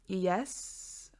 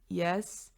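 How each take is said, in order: First: The voice sounds high, weak and unmanly. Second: The voice sounds lower, firmer and manlier.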